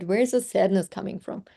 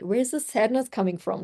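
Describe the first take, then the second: First: Said in the usual way. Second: Lightly voiced curious Dora-style question; curious explorer. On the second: Coach asking herself like Dora the Explorer, lightly curious. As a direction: ask it like a kid explorer on a hunt. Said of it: "I've been like Dora the Explorer".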